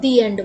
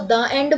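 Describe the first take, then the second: First: 'The' is said with a long 'thee' vowel. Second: 'The' is said with a short 'thuh' vowel. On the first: The speaker calls it right. "अगर vowel है, तो ये दी की sound देगा" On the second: The speaker calls it wrong. "मैं इसको द end बोलूं"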